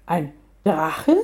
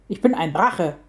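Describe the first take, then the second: First: DRACHE rising in disbelief; puzzled lift at the end of Drache; incredulous question. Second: DRACHE stated as fact with falling pitch; firm statement. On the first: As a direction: echo it as a question, pitch climbing on Drache. Lioness doubts what she heard. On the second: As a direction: state it firmly, voice dropping on Drache. Dragon corrects being called a mountain. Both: A narrator's reading.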